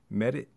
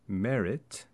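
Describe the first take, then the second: First: The final T is cut off without release. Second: The final T is released with a burst.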